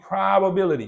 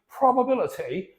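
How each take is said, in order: First: It is said in an American accent. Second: It is said in a British accent. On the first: "And the American is going to be" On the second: "In the British English"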